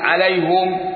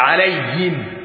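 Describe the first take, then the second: First: The h-sound is followed by a u vowel. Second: The h-sound is followed by an i vowel. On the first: This is one reader's way of reciting the word. "حمزه ولديهم جميعا بضم الهاء وقفا وموصلا" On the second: This is how the remaining readers recite the word. "يبقى الباقي الضم ضده ايه؟ الضم ضد الكاف"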